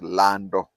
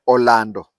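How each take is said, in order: First: "Lando" with the opening O dropped; Luhya pronunciation. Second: "Orlando" with its opening O sounded; Luo pronunciation. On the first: Showing how Luhyas say the name, "Lando" without its first vowel. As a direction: say "Lando", starting straight on the L. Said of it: "They pronounced Lando". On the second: Explaining the Luo name, "Orlando" pronounced with its initial O. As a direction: say "Orlando" in full, first vowel included. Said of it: "Luyas could not pronounce Orlando". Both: Shown as a demonstration.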